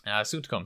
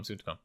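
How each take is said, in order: First: Said in the usual way. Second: A hushed, knowing echo of the teaser; quiet echo. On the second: Real, not acted. To his co-host, teasing a future episode, quietly echoed. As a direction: repeat it much softer, under the breath.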